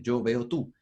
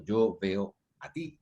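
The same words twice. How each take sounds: First: Said in the usual way. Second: "Yo veo a ti" spelled out slowly, word by word; slow teacher demo; slow careful demo. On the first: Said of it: "suena tarzanado". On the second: Shown as a demonstration. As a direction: lay out each word slowly for the class. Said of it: "ese a ti ya se transformó en objeto".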